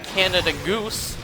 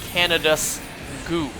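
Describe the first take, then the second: First: The s sound comes at the very end. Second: The s sound comes right after Canada.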